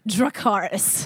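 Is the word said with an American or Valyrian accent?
American. It is said with an American accent.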